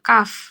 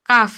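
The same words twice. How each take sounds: First: It ends with air through teeth and lip. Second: It ends with air through teeth and lip.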